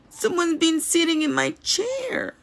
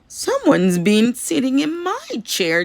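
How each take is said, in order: First: It is said in a small, squealing voice. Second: It is said in a medium, gasping voice.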